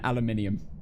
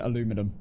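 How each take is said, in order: First: It is said in a British accent. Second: It is said in an American accent. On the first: The speaker calls it wrong. "That is way easier to say than aluminium" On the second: The speaker calls it right. "I prefer the American version"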